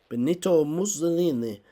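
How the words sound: It is said in a put-on Italian accent.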